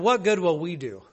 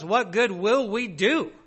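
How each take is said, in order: First: It is asked in a disheartened tone. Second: It is asked in a hopeful tone.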